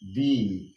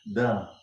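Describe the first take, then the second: First: It is said the way used before vowels. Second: It is said the way used before consonants. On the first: A vowel sound comes next. "when it is followed by a vowel sound, it will be pronounced the" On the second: A consonant sound comes next. "followed by a consonant sound, it is pronounced the"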